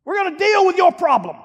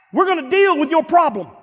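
First: Higher and louder preaching climax; soaring repeated declaration; even bigger repeat. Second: Firm, raised preacher voice; strong declaration; emphatic preaching. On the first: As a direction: hit the repeat harder than the first. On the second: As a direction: drive the promise home. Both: Acted.

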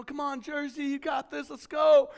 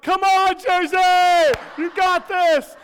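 First: Higher-pitched imitation of a sports fan; sideline cheering. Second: Very loud, high sideline bellow; full-volume cheering. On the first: Uncle cheering at niece's soccer game, high and keen. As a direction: re-enact urging a player on. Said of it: "I was, you know, into the game". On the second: Retold or imitated. Uncle ignoring crying child to cheer niece, high loud shout. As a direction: yell it across the field, re-enacting a fan.

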